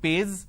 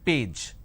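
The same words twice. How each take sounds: First: The word ends with a z sound. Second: The word ends with a j sound. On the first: The speaker calls it wrong. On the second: The speaker calls it right.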